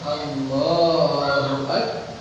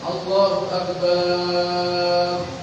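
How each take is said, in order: First: The 'ba' vowel in Akbar is kept short. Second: The 'ba' vowel in Akbar is drawn out long. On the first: The speaker calls it right. "Jadi yang benar itu" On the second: The speaker calls it wrong. "Atau barnya dipanjangkan"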